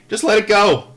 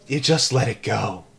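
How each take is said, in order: First: Punched high and loud; louder, higher just let it go; emphatic advice. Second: Said in the usual way. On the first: Real, not acted. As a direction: let it go, said forcefully. Advice to the boys.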